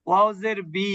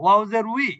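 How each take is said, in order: First: The syllable starts with a b sound. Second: The syllable starts with a w sound. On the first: The speaker calls it wrong. "ছোটবেলায় কিন্তু দেখেন আবার কি শেখানো হতো" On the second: The speaker calls it right. "উই বললে যথেষ্ট"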